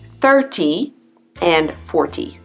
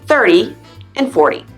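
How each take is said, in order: First: The t in the middle sounds like a crisp t. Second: The t in the middle sounds like a soft d. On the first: The speaker calls it wrong. "But no one says that" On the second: The speaker calls it right. "They say thirty and forty"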